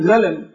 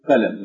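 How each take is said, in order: First: It begins with a gh sound. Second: It begins with a q sound. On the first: This is a dialect form of the word. "بعض السودانيين ينطقون بالقاف بالغين فيقولون غلم" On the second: This is the standard form of the word. "بدل ما يقولوا قلم"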